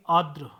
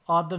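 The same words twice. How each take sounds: First: आद्र said firmly as 'aardra'; correct pronunciation. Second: आद्र without the first r; wrong pronunciation. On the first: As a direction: put an r before द in आद्र. (आद्र का सही रूप, आर्द्र) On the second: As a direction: say आद्र wrongly, a plain 'aadra'. (आद्र, गलत उच्चारण) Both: Shown as a demonstration. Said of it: "आद्र नहीं".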